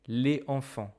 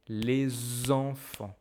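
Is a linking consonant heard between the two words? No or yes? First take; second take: no; yes. First: The words are said with no linking consonant. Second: A z sound links the two words. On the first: The speaker calls it wrong. "I cannot say les enfants" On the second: The speaker calls it right. "I must say les enfants"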